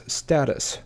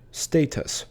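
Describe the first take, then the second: First: Status said STAT-us; common mispronunciation. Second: Status said STAY-tus; correct pronunciation. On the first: Teacher showing viewers the wrong way. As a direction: say status with a short a. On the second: Teacher showing viewers the right way. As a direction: say status with a long a. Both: Shown as a demonstration. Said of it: "often mispronounced as status".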